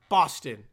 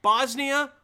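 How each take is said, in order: First: "Boston" loud, dropped low and falling; "Boston" lower, with a firm closing fall; contrasting Boston with Bosnia. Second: "Bosnia" high and loud, left hanging; "Bosnia" pitched up and punched; contrasting Bosnia with Boston. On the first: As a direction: answer with "Boston" pitched down. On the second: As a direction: lift "Bosnia" up as the first of two compared words. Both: Shown as a demonstration. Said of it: "I can understand Boston. You can maybe".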